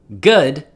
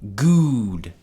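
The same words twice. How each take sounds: First: The vowel is a short u sound. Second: The vowel is a long oo sound. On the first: "instead of good" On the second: "it sounds like good"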